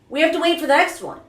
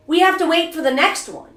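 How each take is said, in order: Both takes have the same delivery.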